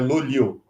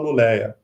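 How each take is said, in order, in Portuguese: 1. O nome termina com som de 'o/u'. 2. O nome termina com som de 'eia'. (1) "ele termina com U, então é Lulio" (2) "Normalmente em português você fala Luleia"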